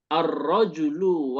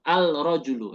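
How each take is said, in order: First: The L is absorbed into a doubled R. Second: The L is pronounced before the R. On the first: The speaker calls it right. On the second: The speaker calls it wrong.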